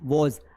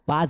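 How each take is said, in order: First: The vowel is said with the mouth opened tall. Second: The vowel is said with the mouth spread wide. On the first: The speaker calls it right. "मुंह को खड़ा करना है" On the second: The speaker calls it wrong. "मुंह को आड़ा नहीं करना है"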